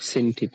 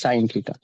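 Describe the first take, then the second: First: The first word sounds like 'sin'. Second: The first word sounds like 'sign'. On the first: The speaker calls it wrong. "it's not sin theta" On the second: The speaker calls it right. "it's sine theta"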